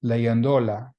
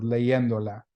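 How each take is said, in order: First: Leyéndola wrongly stressed as le-yen-DO-la; misplaced stress. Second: Leyéndola with the stress on YEN; stress on second E. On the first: Teacher shows how it sounds without the accent, leyéndola stressed on DO. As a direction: push the stress onto DO in leyéndola. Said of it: "it would be pronounced". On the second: Teacher shows students the accented word, leyéndola stressed on YEN. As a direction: lean on the middle YEN of leyéndola. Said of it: "put an accent mark on the E". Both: Shown as a demonstration.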